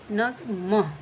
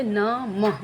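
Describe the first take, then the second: First: नमः broken into न and मह with a breathy h; syllable by syllable न मह; split syllables. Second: नमः drawn out slowly as one word; slow whole-word नमः for children; slow demo. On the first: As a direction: separate न from मह and breathe the h. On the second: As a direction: stretch out नमः smoothly. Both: Shown as a demonstration. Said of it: "मह के साथ अह निकल रहा है".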